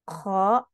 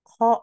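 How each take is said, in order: First: The vowel is open with unrounded lips. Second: The vowel is an 'o' with rounded lips. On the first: The speaker calls it right. "mulut kita tidak membulat" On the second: The speaker calls it wrong. "o gitu tidak"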